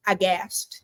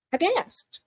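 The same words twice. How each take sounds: First: Said in the usual way. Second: Sharp mock gasp, then I gasped up high; a hammed-up gasp before the words. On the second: Shown as a demonstration. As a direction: act out the shock with a gasp.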